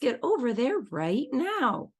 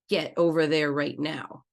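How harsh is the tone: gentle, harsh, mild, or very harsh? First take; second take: gentle; harsh. First: The tone is gentle, happy and playful. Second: The tone is harsh but slightly softer. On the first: "get to a green tone of voice" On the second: "Let's say it in an orange tone of voice"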